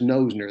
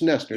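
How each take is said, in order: First: The first syllable sounds like 'no'. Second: The first syllable sounds like 'ness'. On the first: The speaker calls it wrong. "everybody says Nosner. That's what it looks like" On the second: The speaker calls it right. "but it's Nessner. It's just a silent O"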